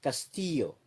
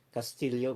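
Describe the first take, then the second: First: Castillo said cas-TEE-yo, double L as a Y. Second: Castillo said cas-TEEL-yo, double L as LY. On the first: Vlogger shows the Latin American way to say the name, double L as Y. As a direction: Castillo with the L L turned into a Y sound. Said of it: "L L could be pronounced as". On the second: Filipino vlogger shows how Filipinos say the name, double L as LY. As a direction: Castillo with the L L sounded as LY like at home. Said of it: "we say Castillo". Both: Shown as a demonstration.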